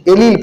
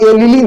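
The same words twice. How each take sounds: First: एलील as two syllables, ending on the l; correct allele pronunciation. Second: एलील misread with an extra syllable at the end; mispronounced allele. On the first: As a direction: say एलील as "a-LEEL". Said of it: "एलील पढ़ना है इसको". (एलील का सही उच्चारण, "ए-लील") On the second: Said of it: "इसको आप एलील नहीं पढ़ेंगे". (एलील का गलत उच्चारण, अंत में एक अतिरिक्त अक्षर) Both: Shown as a demonstration.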